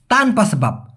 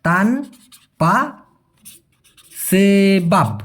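First: Said in the usual way. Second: তানপা সেবাব spelt out very slowly, each word set apart with a pause; slow syllable demo. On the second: Shown as a demonstration. Teacher to viewers, breaking up তানপা সেবাব slowly. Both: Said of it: "সেই ক্ষেত্রে হবে".

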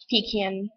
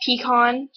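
First: "pecan" said as PEE-can; short-a variant. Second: "Pecan" said as pee-KAHN; ah variant. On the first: Offering the other option in an accent challenge, "pecan" as PEE-can. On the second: Vlogger reading accent-challenge words, "Pecan" as pee-KAHN. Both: Shown as a demonstration. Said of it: "Pronounce the following words".

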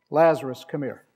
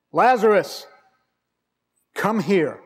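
First: Said in the usual way. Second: Loud, raised call toward the tomb; commanding call. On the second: Retold or imitated. Jesus calling dead Lazarus out of the grave, loud command. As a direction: call him out with full authority.

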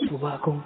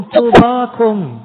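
First: Hushed afterthought; soft echo. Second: Long, high, loud drawn-out blessing; blessed, drawn out. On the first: Shown as a demonstration. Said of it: "echoes the word softly". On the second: Acted. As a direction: stretch the word slowly and lift it high. Preacher voices Christ blessing crowd.

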